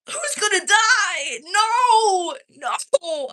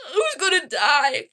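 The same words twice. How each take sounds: First: Much higher, louder, slow "Who's gonna die?" then cried-out "No!"; high, loud mock panic over the trailer; dramatic dread. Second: Higher, louder "who's gonna die?" through a laugh; half-laughing dramatic question; laughing mock dread. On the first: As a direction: ham up the horror of losing a favourite character. Reacting to a show trailer. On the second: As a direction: giggle out the question again. Repeating the trailer worry.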